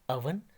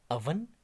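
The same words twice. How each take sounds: Both takes have the same delivery.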